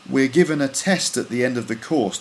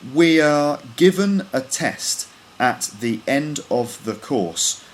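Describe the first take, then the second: First: The words run together as one linked sound. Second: Each word is pronounced separately and distinctly. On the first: "with all the words linked up" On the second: "once with all the words individually pronounced"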